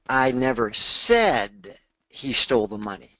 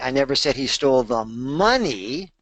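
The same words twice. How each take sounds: First: The word "said" carries the main stress. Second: The word "money" carries the main stress. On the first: It was implied but not actually said. "I might have implied it" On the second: He stole something else. "he stole something else"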